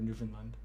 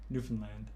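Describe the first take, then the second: First: The last syllable sounds like 'lund'. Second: The last syllable sounds like 'land'. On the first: "instead of Lund" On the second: "it's land instead of Lund"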